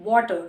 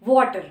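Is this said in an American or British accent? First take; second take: American; American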